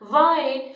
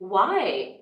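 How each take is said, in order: First: It is said flatly, like a statement. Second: It is said with a questioning tune. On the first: The speaker calls it wrong. "मैंने इस conversation में बोला था वाई" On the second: The speaker calls it right. "वाई मतलब एक question के sense में।"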